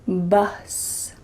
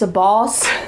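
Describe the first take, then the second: First: The vowel is a short U sound. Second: The vowel is not a short U sound. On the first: The speaker calls it right. "Make sure you say" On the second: The speaker calls it wrong. "make sure you're not saying"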